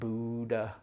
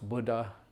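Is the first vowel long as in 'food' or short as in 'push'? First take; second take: long; short. First: The first vowel is a long oo sound. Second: The first vowel is short, as in push. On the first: The speaker calls it wrong. "It's not a oo" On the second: The speaker calls it right. "it's the same U as in push or bush"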